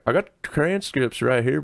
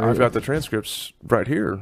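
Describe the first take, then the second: First: The voice is intense and forceful. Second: The voice is calm and quiet. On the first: The speaker calls it right. "It needs to be like" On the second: The speaker calls it wrong. "why are we doing this calm voice?"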